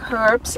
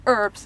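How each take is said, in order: First: The word has a non-American pronunciation. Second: The word has an American pronunciation.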